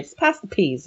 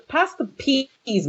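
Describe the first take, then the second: First: Said in the usual way. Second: Slow, higher, lazy pass the peas; mock unbothered. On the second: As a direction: drawl pass the peas like nothing is happening. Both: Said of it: "you guys would probably be like".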